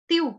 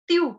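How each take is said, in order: No difference in how they are said.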